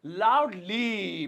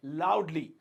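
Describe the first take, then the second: First: "loudly" very slowly, syllables stretched; drawn-out repetition. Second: Said in the usual way. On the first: Shown as a demonstration. Teacher introducing a new adverb to students, drawn out.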